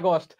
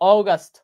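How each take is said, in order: First: It is said with a Bengali-style pronunciation. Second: It is said with an English-style pronunciation. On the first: "আমরা সারা জীবন পরে আসতেছি আগস্ট" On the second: "যদিও আমরা হচ্ছে ইংলিশে এত ভালো উচ্চারণ করতে পারি না"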